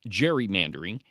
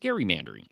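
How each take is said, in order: First: The word begins with a J sound. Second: The word begins with a hard G sound. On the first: The speaker calls it wrong. "It is not gerrymandering" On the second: The speaker calls it right. "it is gerrymandering, because it's the term is named after Eldridge Gerry"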